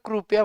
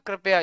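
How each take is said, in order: First: The first syllable has a 'u' vowel. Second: The first syllable has an 'i' vowel. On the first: This is how it is said here. "यहाँ पे कृपया बोलते हैं। क्रू थोड़ा यू वाला" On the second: This is how it is said back home. "जैसे हमारे उधर बोलते हैं ना"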